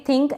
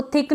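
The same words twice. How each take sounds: First: थिंक with the n sounded; correct pronunciation. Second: थिक said with no n sound; wrong pronunciation. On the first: Teacher shows learners the right reading, nasal थिंक. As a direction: let a nasal n ring before the k in थिंक. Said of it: "एन का sound भी है". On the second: Teacher shows learners the misreading, थिक without the n. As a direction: drop the nasal, plain short थिक. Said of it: "इसको थिक नहीं पढ़ेंगे". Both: Shown as a demonstration.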